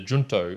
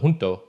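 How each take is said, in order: First: It is pronounced the English way. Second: It is pronounced the Spanish way. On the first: "The first one is the junto" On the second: "perhaps it is better pronounced the junto, because in junto in Spanish means together"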